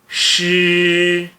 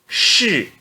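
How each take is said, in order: First: The pitch stays high and level. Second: The pitch falls sharply from high. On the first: "S H I no primeiro tom fica X" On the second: "E no quarto tom"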